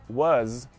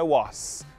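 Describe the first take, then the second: First: The word ends with a buzzing Z sound. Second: The word ends with a hissing S sound. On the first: The speaker calls it right. "Som de Z no final" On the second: The speaker calls it wrong. "não é som de S, não é was"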